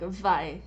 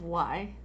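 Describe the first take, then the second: First: The word begins with a v sound. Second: The word begins with a w sound. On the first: The speaker calls it wrong. "like vi instead of" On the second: The speaker calls it right. "instead of y"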